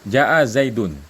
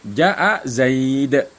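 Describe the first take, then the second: First: The last word ends with an n sound. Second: The last word ends without an n sound. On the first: The phrase continues without stopping. "Kalau kita baca Zaidun kan kayak ada nun di akhirnya kan" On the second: The phrase ends with a stop. "kalau dibaca waqaf, enggak ada nunnya"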